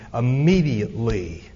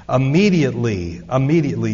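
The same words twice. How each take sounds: First: Said in the usual way. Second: "Immediately" punched loud, falling hard each time; emphatic repetition. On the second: Shown as a demonstration. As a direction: stamp "immediately" twice, loud and firm. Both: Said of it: "Do you love that word?".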